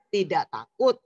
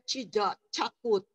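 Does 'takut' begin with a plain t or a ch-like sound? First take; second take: plain t; ch-like. First: The t of 'takut' sounds like plain t. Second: The t of 'takut' sounds like ch. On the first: The speaker calls it right. "Ucapkan huruf-huruf seperti biasa saja" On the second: The speaker calls it wrong. "supaya lebih keren"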